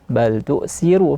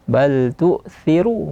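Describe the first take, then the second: First: The consonant is a hissing s sound. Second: The consonant is a soft th sound. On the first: The speaker calls it wrong. "bukan bal tu'siru pakai sin" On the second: The speaker calls it right. "pakai kayak tha"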